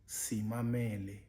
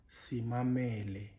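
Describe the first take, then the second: No difference in how they are said.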